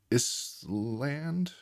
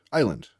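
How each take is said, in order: First: ISLAND sounded out slowly as "iss-land", questioning; a student decoding ISLAND letter by letter as "iss-land"; decoded ISLAND. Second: Said in the usual way. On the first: Shown as a demonstration. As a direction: read ISLAND by its spelling, "ISS... LAND?", unsure. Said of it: "If they say Island".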